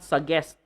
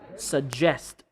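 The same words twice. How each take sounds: First: The middle consonant is not a j sound. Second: The middle consonant is a voiced j sound. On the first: The speaker calls it wrong. "not suggest" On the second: The speaker calls it right. "J j"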